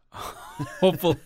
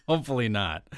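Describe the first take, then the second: First: Breaking into a laugh on the word. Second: Said in the usual way. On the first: Real, not acted. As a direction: chuckle it out, amused. Laughing at co-host's joke.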